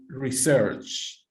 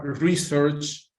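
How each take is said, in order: First: "research" stressed on the second syllable, as a verb; slowly weight the end of "research". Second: "research" stressed on the first syllable, as a noun; slowly weight the start of "research". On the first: Teacher contrasts two stresses for class, "research" stressed on its second syllable. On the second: Teacher contrasts two stresses for class, "research" stressed at the beginning. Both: Shown as a demonstration. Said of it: "the same as in suspect".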